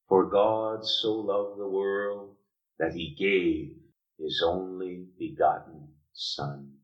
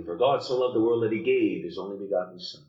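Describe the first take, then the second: First: Slow, deliberate, weighing each word; preacher reads John 3:16 slowly to the congregation, slow and solemn; slow reading of the verse. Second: Fast, rushed recitation; preacher mimics how people rush the verse, fast and glib; rattled off quickly. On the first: Let the verse land slowly and solemnly. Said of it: "We say that so quickly". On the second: Tossing off a memorized verse. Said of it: "But we say it so quickly". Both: Shown as a demonstration.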